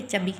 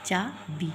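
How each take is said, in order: First: चबी quickly, with a short first a; wrong short vowel. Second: चाबी with a long open aa, then bee; correct long vowels. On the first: Teacher repeating the mistaken form, wrong short vowel. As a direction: keep the first a in चबी brief. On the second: Teacher correcting the short form, correct long vowels. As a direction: hold the aa in चाबी. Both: Shown as a demonstration. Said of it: "चबी थोड़ी कहेंगे".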